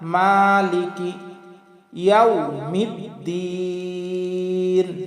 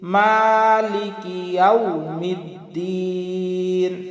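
Both takes have the same delivery.

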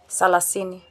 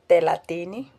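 First: It begins with an s sound, said fast. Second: It begins with a th sound, said carefully.

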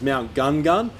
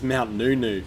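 First: The name starts with a plain g sound. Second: The name starts with an ng sound. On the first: This is how most people say it. The speaker calls it wrong. "commonly known as" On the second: This is the true pronunciation. The speaker calls it right. "the actual pronunciation is"

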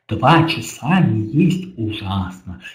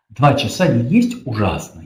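First: The words are read with exaggerated articulation. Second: The words are read with ordinary articulation. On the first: "А теперь с утрированной артикуляцией" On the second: "Если мы просто прочитаем"

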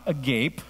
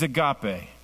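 First: The word is read like English spelling. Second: The word is pronounced as a Greek word. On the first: The speaker calls it wrong. "It's not agape. Hooked on Phonics will not work right here" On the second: The speaker calls it right. "It is agape"

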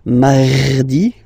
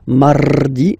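First: The R is pronounced deep and strong. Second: The R is rolled with the tongue. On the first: "You don't need to go too deep like mardi, no" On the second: "You don't move your tongue, so it doesn't sound like mardi"

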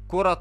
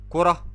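First: The word ends in a t sound, joined on. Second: The word ends in an h sound, stopped. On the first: The word is joined to the next word. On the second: The speaker stops on the word.

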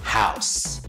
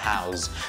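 First: The word ends with a hissing s sound. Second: The word ends with a buzzing z sound. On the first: The speaker calls it right. "o substantivo é com som de S" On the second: The speaker calls it wrong. "nada de falar house"

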